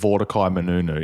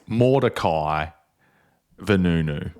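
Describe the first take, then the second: First: The surname begins with an M sound. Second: The surname begins with a V sound. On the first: The speaker calls it wrong. "I think I said Mordecai Menunu" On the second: The speaker calls it right. "It's it's Mordecai Vanunu"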